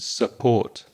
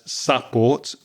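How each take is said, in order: First: The first vowel is a reduced schwa sound. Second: The first vowel is a strong 'ah' sound. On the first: The speaker calls it right. "the schwa uh in support" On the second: The speaker calls it wrong. "using a strong ah sound"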